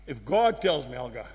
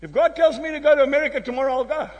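First: Much lower and softer, sinking away; hushed low echo of the vow; quiet repeat. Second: Said in the usual way. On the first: Shown as a demonstration. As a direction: drop the voice to a low hush.

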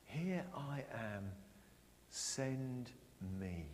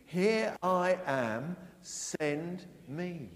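First: Soft, slow and hushed; quiet. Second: Slow, loud, leading the congregation; loud call. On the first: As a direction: say it softly to yourself, slowly. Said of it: "You all said it". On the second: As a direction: say it out slowly for all to repeat. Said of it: "Can we say that after three?". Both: Shown as a demonstration.

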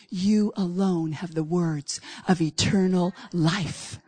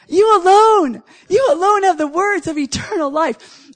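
First: Slow, soft and low, like a hushed confession; quiet reverent quote. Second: Louder, higher, punching "alone"; loud proclamation. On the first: Retold or imitated. Peter answering Jesus, slow hushed and reverent. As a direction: let the words fall gently and slowly. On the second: Real, not acted. Preacher proclaiming the line back to his congregation, loud. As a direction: declare it to the whole room.

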